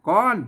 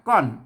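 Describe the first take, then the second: First: The syllable is said with a high tone. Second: The syllable is said with a falling tone. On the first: "ก้อนเสียงตีไหม" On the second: "ก้อนเสียงโทปกตินะครับ"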